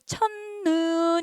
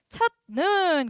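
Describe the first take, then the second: First: The first syllable ends in an n sound. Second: The first syllable ends in a t sound. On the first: "니은으로 바뀌어서 첫눈 이렇게 돼야겠네" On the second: "음끝 디귿으로 바꿔야겠네"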